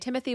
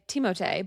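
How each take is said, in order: First: The name is said with an English pronunciation. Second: The name is said with a French pronunciation. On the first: "most people say Timothy" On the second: "The French way is closer to Timothée, like Timothée"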